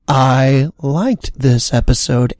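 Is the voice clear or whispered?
clear. The voice is full, clear and deliberate. "Do I need to speak more clearly?"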